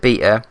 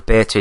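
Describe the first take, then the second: First: The word is said with a non-American pronunciation. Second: The word is said with an American pronunciation.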